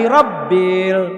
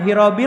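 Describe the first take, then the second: First: The b sound is held and doubled. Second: The b sound is short and single. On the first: The speaker calls it right. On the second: The speaker calls it wrong. "sering kelewat"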